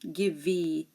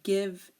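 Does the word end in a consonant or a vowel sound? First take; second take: vowel; consonant. First: An extra vowel sound is added at the end. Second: The word ends on the consonant sound. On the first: The speaker calls it wrong. "we don't say" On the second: The speaker calls it right. "the E here is silent"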